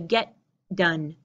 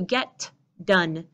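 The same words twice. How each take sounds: First: The t and d merge into one sound. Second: The t and d are pronounced separately. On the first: The speaker calls it right. "They pull together" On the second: The speaker calls it wrong. "you don't hear get done"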